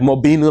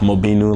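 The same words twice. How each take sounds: First: It is said aggressively, with strong force. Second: It is said mildly, with little force. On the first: The speaker is really upset. "it sounds a little bit more like aggressive" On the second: The speaker is only a little angry. "like okay, I'm kind of angry"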